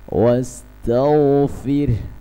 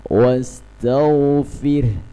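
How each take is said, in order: The two takes are said the same way.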